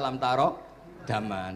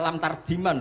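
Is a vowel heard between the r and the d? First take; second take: yes; no. First: It is said as three words, tara daman. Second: It is run together as one word, tardiman. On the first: The speaker calls it right. "Ternyata ngaji Mbah paginya jadi baca" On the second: The speaker calls it wrong. "kalau kamu malamnya baca lam tardiman loh kok"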